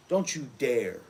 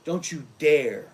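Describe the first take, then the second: First: Said in the usual way. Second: Slow, louder final warning; firm, stretched don't you dare; louder slow threat. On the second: Acted. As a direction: punch it out as a threat.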